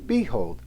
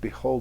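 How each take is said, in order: First: The stress is on the first syllable. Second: The stress is on the second syllable. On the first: The speaker calls it wrong. "reverse the stress and turn it into strung weak" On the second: The speaker calls it right. "Instead of behold"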